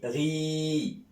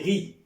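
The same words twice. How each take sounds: First: The vowel is held long. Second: The vowel is cut short. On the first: "s'il y a l'Ya" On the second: "il n'y a pas l'Ya"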